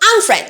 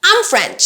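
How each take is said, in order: First: 'I am' is shortened to a weak 'm'. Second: The same.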